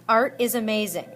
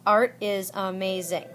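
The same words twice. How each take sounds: First: Said in the usual way. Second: "Art is amazing" in five measured beats; syllable by syllable. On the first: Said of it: "It's five syllables". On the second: Shown as a demonstration. Teacher proving five syllables to students, "Art is amazing" beat by beat. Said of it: "Five syllables".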